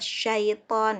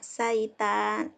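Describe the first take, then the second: First: The word begins with an 'sh' sound. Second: The word begins with a plain 's' sound. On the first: The speaker calls it right. "Al-Quran ada tulisannya syaiton gitu kan" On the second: The speaker calls it wrong. "Pasti dia nyebutnya saitan gitu ya"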